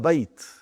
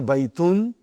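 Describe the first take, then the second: First: The word ends sharply on a bare 't'. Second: The word ends with an added '-un' syllable. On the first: The speaker calls it right. "you say هذا بيت. Just like in Quran, when you stop, you give a sukun" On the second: The speaker calls it wrong. "normally, when you speak, you do not say baytun"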